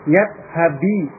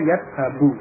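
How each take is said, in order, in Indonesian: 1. Kata ini berakhir dengan vokal i. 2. Kata ini berakhir dengan vokal u. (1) "ini baca kasrah ya" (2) "harus marfu' dengan dhammah"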